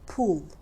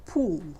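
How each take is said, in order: First: The vowel is said with tense, tightly rounded lips. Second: The same.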